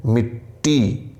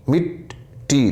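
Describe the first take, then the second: First: Slow मिट्टी with the ट्ट held double; doubled consonant. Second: Very slow मिट्टी, the ट्ट clearly held twice; held double consonant. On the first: Teacher showing students the tashdeed in मिट्टी, slowly. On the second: Teacher repeating मिट्टी for students, very slowly and held. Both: Shown as a demonstration. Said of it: "दो बार आवाज़ आ रही है".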